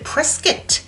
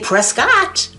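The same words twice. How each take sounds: First: The name is pronounced the way locals say it. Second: The name is pronounced the way it is spelled. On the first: This is the way residents insist on. "they like you to pronounce it Prescott" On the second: This is the speaker's preferred way. "like I like to say, because that's phonetically correct"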